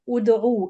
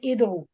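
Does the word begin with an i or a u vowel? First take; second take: u; i. First: The word begins with a u vowel. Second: The word begins with an i vowel. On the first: The speaker calls it right. "So it will be like this. U" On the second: The speaker calls it wrong. "It's not id'u"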